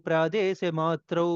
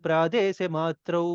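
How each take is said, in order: The two takes are said the same way.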